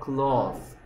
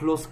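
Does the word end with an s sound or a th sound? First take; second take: th sound; s sound. First: The word ends with a th sound. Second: The word ends with an s sound. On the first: The speaker calls it right. "혀를 살짝 물고 뭐라 그래요? Cloth 이렇게 얘기하죠" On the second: The speaker calls it wrong. "close 안 하죠?"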